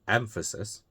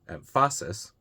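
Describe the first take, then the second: First: The stress is on the first syllable. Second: The stress is on the second syllable. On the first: The speaker calls it right. "the first one" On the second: The speaker calls it wrong. "The second one, ... obviously wrong"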